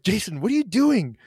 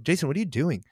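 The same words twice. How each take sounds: First: Harsh snapping. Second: Said in the usual way. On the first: Retold or imitated. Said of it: "I didn't say it like that". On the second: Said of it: "I remember saying it like that".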